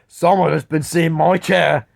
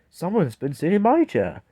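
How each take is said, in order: First: It is said in a big, deep voice. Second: It is said in a medium, middling voice. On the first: "said in his great big voice" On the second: "said in a middle-sized voice"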